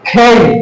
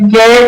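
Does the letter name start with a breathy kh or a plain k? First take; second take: breathy kh; plain k. First: It starts with a breathy kh sound. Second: It starts with a plain k sound. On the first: The speaker calls it right. "আসলে সঠিক উচ্চারণ হবে খেই খেই, ক্ষয়কার রস্যই খেই" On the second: The speaker calls it wrong. "আমরা যেটা বলি কে"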